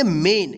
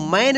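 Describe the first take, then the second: First: "मेन" with a long pure "ay" vowel, like "mayn"; correct reading. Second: "मैन" with an open gliding "ai" vowel; wrong reading. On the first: Teacher shows learners how main is read, "मेन" with long "ay". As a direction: say "मेन" with a clear "ay", not "ai". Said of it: "क्या पढ़ेंगे, मेन". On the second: Teacher warns learners off misreading main, "मैन" with open "ai". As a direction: say "मैन" with "ai" in place of "ay". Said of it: "इसको मैन नहीं पढ़ेंगे". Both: Shown as a demonstration.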